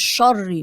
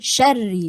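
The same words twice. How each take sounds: First: The 'sh' is heavy and full. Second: The 'sh' is light and thin. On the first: The speaker calls it wrong. "مش شري" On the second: The speaker calls it right. "بقول شري"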